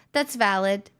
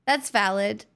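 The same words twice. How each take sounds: The two takes are said the same way.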